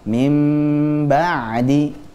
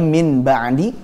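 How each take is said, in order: First: The nasal before b is a lengthened m. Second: The nasal before b is an n sound. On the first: The speaker calls it right. "akhirnya dibaca mim ba'di" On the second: The speaker calls it wrong.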